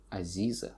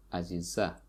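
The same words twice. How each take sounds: First: Aziza stressed on the middle i; Aziza, second syllable stressed, Russian way; Russian-style stress. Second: Aziza stressed on the final a; Aziza, last syllable stressed. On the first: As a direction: say Aziza with the weight on zi. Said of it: "in Russian, they say". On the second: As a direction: say Aziza with the weight on za. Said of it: "the stress falls on the last". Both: Shown as a demonstration.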